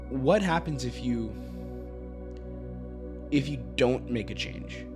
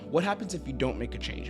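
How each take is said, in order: First: The question is said slowly, with added weight. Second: The question is said at a quick, light pace. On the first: The words carry more weight and impact. "I added more weight, more impact behind my words because I took time" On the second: The asker is just curious. "I'm just curious"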